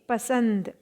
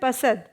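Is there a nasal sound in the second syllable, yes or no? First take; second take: yes; no. First: The second syllable has a nasal sound. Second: The second syllable has no nasal sound. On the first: The speaker calls it right. "लेकिन होना क्या चाहिए?" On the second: The speaker calls it wrong. "यह है पसंद"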